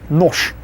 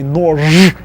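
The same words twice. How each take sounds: First: The final consonant is voiceless. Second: The final consonant is voiced. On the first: The speaker calls it right. "Russians make it easier and say нож" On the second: The speaker calls it wrong. "Can you imagine actually trying to say нож? That's too, too hard"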